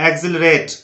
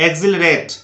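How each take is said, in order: The two takes are said the same way.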